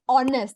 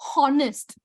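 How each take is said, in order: First: The word begins with no H sound. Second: The word begins with an audible H sound. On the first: The speaker calls it right. "you say honest. The H is silent" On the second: The speaker calls it wrong. "you don't say honest"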